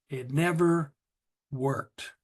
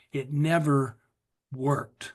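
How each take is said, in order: Both takes have the same delivery.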